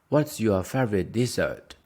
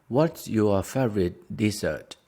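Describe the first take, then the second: Both takes have the same delivery.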